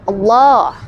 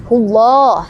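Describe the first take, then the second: The two takes are said the same way.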